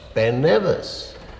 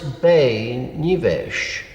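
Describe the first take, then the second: First: The name is said with English pronunciation. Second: The name is said with Gaelic pronunciation. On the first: "in English it's just Ben Nevis" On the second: "The Gaelic is Be Nivesh"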